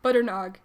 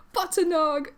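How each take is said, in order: First: Embarrassed. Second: High, excited exclamation; delighted cry. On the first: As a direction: say it small and plainly, a little embarrassed. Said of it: "even more embarrassed". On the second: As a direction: cry the pet's name back in delight. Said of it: "Gavin cries". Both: A narrator's reading.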